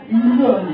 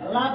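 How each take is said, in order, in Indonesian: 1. Vokalnya bulat, seperti o. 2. Vokalnya adalah a terbuka biasa. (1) "Jangan lo" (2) "La biasa aja"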